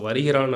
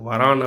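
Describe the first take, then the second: First: The verb is said in its full, uncontracted form. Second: The verb is said in a short, contracted form. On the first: This is the formal written form. "எழுத்து வழக்கு" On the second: This is the everyday spoken form. "பேச்சு வழக்கு"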